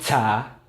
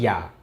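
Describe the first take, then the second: First: The word begins with a j sound. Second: The word begins with a y sound. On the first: The speaker calls it wrong. "Ini bacanya bukan ja" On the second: The speaker calls it right. "tapi ya"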